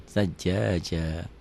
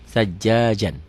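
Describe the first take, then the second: First: "Sajjaja" ending on a long open "aa", no N; stopping form. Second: Said in the usual way. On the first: Shown as a demonstration. Teacher shows stopping on it, "Sajjaja" with long final a. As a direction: drop the N and draw out the last "a" of "Sajjaja". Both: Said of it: "Dihentikan jadi sajjaja".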